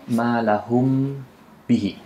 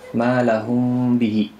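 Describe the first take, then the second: First: The m before b is pronounced clearly. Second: The m before b is hidden and nasalized. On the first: The speaker calls it wrong. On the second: The speaker calls it right.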